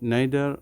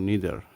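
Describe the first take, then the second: First: It is said with a British pronunciation. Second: It is said with an American pronunciation. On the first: "নাইদার হচ্ছে British উচ্চারণ" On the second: "নিদার হচ্ছে American উচ্চারণ"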